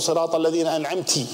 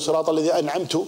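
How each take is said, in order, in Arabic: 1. ينتهي الفعل الأخير بالحركة 'i'. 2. ينتهي الفعل الأخير بالحركة 'u'. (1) "جعلت امرأة هي المنعمة" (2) "جعلت نفسك إيش؟ أنت المنعم"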